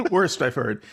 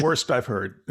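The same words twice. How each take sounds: First: Laughing. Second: Said in the usual way. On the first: Real, not acted. Repeats verdict while laughing.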